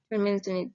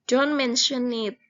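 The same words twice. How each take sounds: First: Said in the usual way. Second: Clear, emphatic model phrase; teacher modelling an English phrase; model reading aloud. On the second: Shown as a demonstration. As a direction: say it out for the class to repeat. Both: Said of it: "Kemudian responnya kita baca bareng-bareng".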